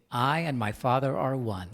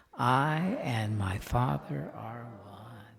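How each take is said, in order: First: Said in the usual way. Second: Very slow, drawn-out affirmation; slow, hushed, reverent recitation. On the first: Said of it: "Everybody say that with me". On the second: Shown as a demonstration. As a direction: let each word sink in slowly. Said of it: "Let's say that".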